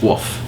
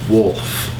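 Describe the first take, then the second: First: The word is said with no L sound. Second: The word is said with a clear L sound. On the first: The speaker calls it wrong. "Because I usually just say woof" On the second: The speaker calls it right. "I say wolf now, with yeah, an L"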